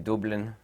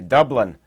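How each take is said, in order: First: The word is said with an Irish accent. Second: The word is said with an American accent. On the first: "as an Irishman would say it when they say Dublin" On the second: "here in the United States we say Dublin"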